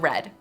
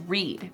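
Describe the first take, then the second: First: The vowel is short, as in 'red'. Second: The vowel is long, as in 'reed'. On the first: It is the past participle of the verb. "the past participle is also" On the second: It is the base form of the verb. "The base form is"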